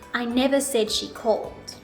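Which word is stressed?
none. No word stands out; the delivery is flat. "I'll first say it with no intonation"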